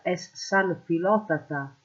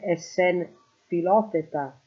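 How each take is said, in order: First: San filotata with open A vowels; dialect form. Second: Sen filoteta with E vowels; standard form. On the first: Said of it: "sarebbe es sen filoteta". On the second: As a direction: say "es sen filoteta", E replacing A in sen and -teta. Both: Shown as a demonstration.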